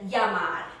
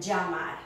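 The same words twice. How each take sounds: First: The double L sounds like an English Y. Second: The double L sounds like an English J. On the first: "pronounced like a Y" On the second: "rather than llamar. I give it a stronger sound"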